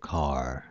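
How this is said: It is said with a clear, strong final r. "アメリカ人が言うとcar"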